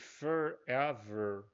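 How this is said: It has a strong American R sound. "esse forever, com esse R bem destacado"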